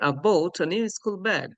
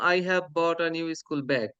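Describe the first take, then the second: First: The word 'have' is shortened to 've. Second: The word 'have' is said in full. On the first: The speaker calls it right. "সঠিক উচ্চারণে বলার চেষ্টা করছি" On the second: The speaker calls it wrong. "এটাকে আমরা normally বলতাম"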